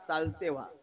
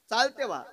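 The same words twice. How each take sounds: First: Said in the usual way. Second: Higher and louder, telling him off; loud retort. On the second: Retold or imitated. Woman at the river ordering the sage away, louder. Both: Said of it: "बारीक काय का".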